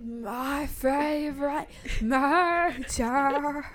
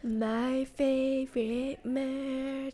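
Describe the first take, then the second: First: Slow, drawn-out podcast intro; podcast host voice. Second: Slow, soft drawn-out intro; breathy true crime host delivery; podcast host voice. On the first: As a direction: stretch it like a true crime host. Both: Retold or imitated. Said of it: "That's what that voice sounds like".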